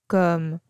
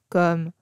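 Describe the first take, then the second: No difference in how they are said.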